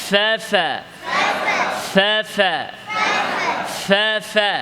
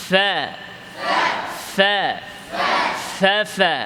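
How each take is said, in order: The two takes are said the same way.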